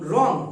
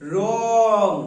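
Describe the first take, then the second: First: The word is said at normal speed. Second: The word is said slowly and drawn out.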